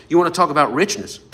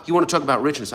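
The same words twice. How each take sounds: First: Louder, faster restart. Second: Said in the usual way. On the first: Real, not acted. Preacher to his congregation, a fired-up restart. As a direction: punch "You wanna talk about richness?" harder and quicker. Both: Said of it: "I gotta stop talking".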